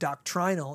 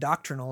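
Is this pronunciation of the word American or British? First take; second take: British; American. First: It is said with a British pronunciation. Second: It is said with an American pronunciation. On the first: "doctrinal is the way you would say it in the United Kingdom" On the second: "doctrinal is the way Americans say it"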